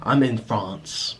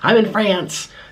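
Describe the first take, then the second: First: France is said with a French accent. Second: France is said with an American accent. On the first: The speaker calls it right. "You say" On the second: The speaker calls it wrong. "you don't walk around in France saying"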